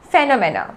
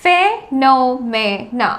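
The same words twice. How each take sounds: First: Said in the usual way. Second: Phenomena slowly as fe, no, me, na; syllable by syllable. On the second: Shown as a demonstration. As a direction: break phenomena into four separate beats. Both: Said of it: "उसको कहा जाता है".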